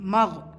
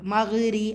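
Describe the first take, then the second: First: The gh sound ends with no vowel. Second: A vowel follows the gh sound. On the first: The speaker calls it right. "மக் அவ்வளோதான்" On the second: The speaker calls it wrong. "மகிரி அப்படி சொல்லக்கூடாது"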